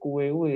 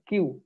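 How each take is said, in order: First: Every letter is voiced, giving several syllables. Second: It sounds like the single letter name Q. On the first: The speaker calls it wrong. "bacanya bukan kuewe" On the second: The speaker calls it right. "tetapi kita baca Q ya"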